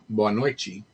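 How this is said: It is said in a Brazilian Portuguese accent. "in Brazil"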